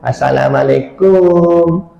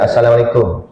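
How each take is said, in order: First: It is said in a soft, swaying, flirty voice. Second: It is said in a plain, ordinary voice.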